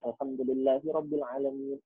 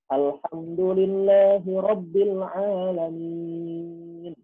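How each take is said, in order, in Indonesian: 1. Dibaca dengan tempo yang jelas lebih cepat. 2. Dibaca dengan tempo yang lebih lambat, biasa saja. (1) "temponya lebih cepat" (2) "Itu orang baca biasa"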